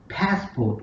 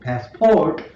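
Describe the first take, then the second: First: The stress is on the first syllable. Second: The stress is on the second syllable. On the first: The speaker calls it right. "we have to stress pass" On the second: The speaker calls it wrong. "instead of saying passport"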